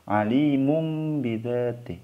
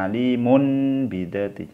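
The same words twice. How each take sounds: First: Alimum bidzati with m for n, lips closed; correct recitation. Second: Alimun bidzati keeping the n instead of m; wrong reading. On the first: Teacher models the correct Alimum bidzati. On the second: Teacher shows students the mistaken alimun bidzati. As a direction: keep the n and say alimun. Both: Shown as a demonstration. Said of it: "Jadi jangan dibaca alimun bidzati".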